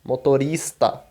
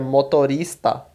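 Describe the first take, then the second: The two takes are said the same way.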